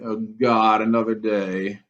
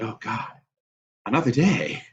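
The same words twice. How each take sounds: First: It sounds weary and dreading. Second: It sounds grateful and joyful.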